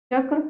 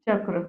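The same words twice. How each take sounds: First: चक्र as the faulty take, rising at the end; deliberately wrong चक्र, left hanging upward; mispronounced चक्र. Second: Said in the usual way. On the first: Shown as a demonstration. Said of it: "अशुद्ध वर्तनी". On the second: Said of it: "ये सारी शुद्ध है".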